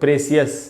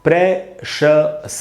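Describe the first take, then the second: First: The ending is said as two syllables, see-us. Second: The ending is said as one syllable, shus. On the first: The speaker calls it wrong. "इसको अपने आप पढ़ लेते लोग प्रेसियस" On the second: The speaker calls it right. "इसका शुद्ध उच्चारण है दोस्तों प्रेशस"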